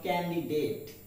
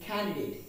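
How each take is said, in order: First: Candidate with an unaspirated K; common mispronunciation. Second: Candidate with an aspirated K; correct pronunciation. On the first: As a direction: say candidate as "kan-di-det". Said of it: "not candidate". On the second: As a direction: say candidate as "KHAN-di-date". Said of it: "the pronunciation is candidate". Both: Shown as a demonstration.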